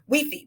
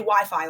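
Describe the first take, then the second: First: The word is said with Spanish pronunciation. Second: The word is said with English pronunciation. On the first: "phonetically how they would say it in Spanish" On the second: "They don't say Wi-Fi over there"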